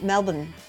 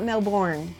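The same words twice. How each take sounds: First: The R sound in the word is dropped. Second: The R sound in the word is pronounced. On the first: The speaker calls it right. "Just don't even pronounce the R" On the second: The speaker calls it wrong. "It's not Melbourne"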